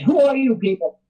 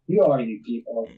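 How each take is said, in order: First: It is said angrily, losing his temper. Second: It is said calmly and matter-of-factly.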